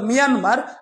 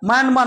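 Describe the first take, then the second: First: The first syllable sounds like 'mee'. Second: The first syllable sounds like 'my'. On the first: The speaker calls it right. "মূলত উচ্চারণটা মিয়ানমার" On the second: The speaker calls it wrong. "মায়ানমার নয়"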